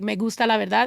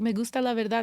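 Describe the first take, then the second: First: It is said boldly and forcefully. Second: It is said shyly and softly.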